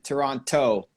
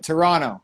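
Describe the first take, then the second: First: The second T is clearly pronounced. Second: The second T is skipped over. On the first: The speaker is not from the city. "people who aren't from the city, always pronounce the last T" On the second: The speaker is a local. "we just kind of we skip over"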